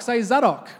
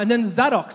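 First: Zadok said again, higher, leading the repeat; prompting the crowd. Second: Zadok said higher, as a name for the crowd; calling out a name. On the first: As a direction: lead the room in saying Zadok. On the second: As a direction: sing out Zadok for the room to repeat. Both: Shown as a demonstration.

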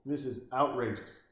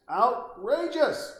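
First: Said in the usual way. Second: Outrageous! drawn out slow, much higher and louder; Outrageous! as a slow, soaring mock-outraged yell; outraged exclamation. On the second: Shown as a demonstration. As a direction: stretch Outrageous! into a big indignant cry.

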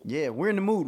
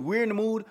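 First: Said in the usual way. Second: "We're in the mood" jumped much higher; high-pitched repeat. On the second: Shown as a demonstration.

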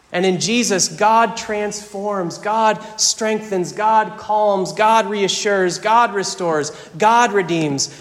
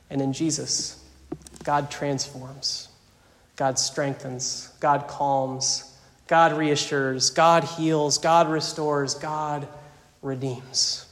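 First: Triumphant pulpit litany; preached litany. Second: Much softer, slow, intimate repetition of each God; quiet tender benediction-like list; hushed litany. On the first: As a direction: proclaim every God like a drumbeat. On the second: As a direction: whisper the promise gently to the flock. Same litany, now hushed. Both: Acted.

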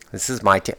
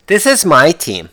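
First: Said in the usual way. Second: Mocking fans. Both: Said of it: "People calling them my teams".

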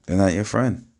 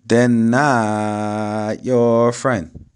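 First: Said in the usual way. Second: "not your" stretched very slowly and loudly; drawn-out emphasis. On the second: Real, not acted. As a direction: hammer home "not", dragging the vowels out long. Drawn-out emphasis before plain repeat.

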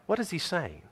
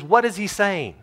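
First: The question repeated much softer; quiet. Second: Said in the usual way. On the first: Shown as a demonstration. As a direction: drop it to a hushed repeat.

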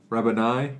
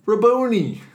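First: Rabboni said RAB-uh-nye, ending like Adonai. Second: Rabboni said rah-BOH-nee, high and loud like Zamboni. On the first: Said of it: "Like Adonai?". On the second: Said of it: "Rabboni? ... Like Adonai?". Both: Shown as a demonstration.

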